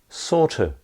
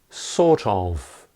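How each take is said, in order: First: The phrase is run together without the v. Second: The phrase is said in full, with the v. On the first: "becomes sorta" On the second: "Or sort of becomes sorta"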